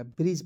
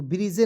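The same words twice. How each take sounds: First: ब्रिज as one syllable, D and E silent; correct pronunciation. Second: ब्रिजे with final E sounded; wrong pronunciation. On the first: Teacher correcting students' reading, silent-E ब्रिज. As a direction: stop ब्रिज on the J sound. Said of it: "ब्रिज पढ़ेंगे". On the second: Teacher warning students off, misread ब्रिजे with sounded E. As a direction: add an "ay" ending, ब्रिजे. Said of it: "ब्रिजे नहीं पढ़िएगा". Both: Shown as a demonstration.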